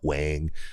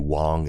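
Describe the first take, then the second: First: The name is said with an English pronunciation. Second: The name is said with a Mandarin pronunciation. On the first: The speaker calls it wrong. "and not Wang" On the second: The speaker calls it right. "I would definitely say Wang"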